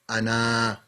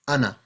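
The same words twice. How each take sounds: First: The final vowel is drawn out long. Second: The final vowel is short, one count. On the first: The speaker calls it wrong. "you won't say Ana" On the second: The speaker calls it right. "It's just Ana. Small. One count"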